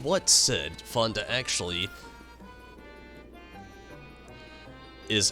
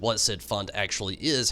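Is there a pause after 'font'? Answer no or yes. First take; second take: yes; no. First: There is a pause after the word font. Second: It flows on without a pause after font. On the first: The speaker calls it wrong. "It's just like I'm doing the pause" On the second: The speaker calls it right. "There shouldn't be a pause there, it's just like rolling off"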